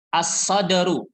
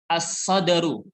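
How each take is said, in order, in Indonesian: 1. Huruf 'l' tidak terdengar, langsung masuk ke 's'. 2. Huruf 'l' tidak terdengar, langsung masuk ke 's'.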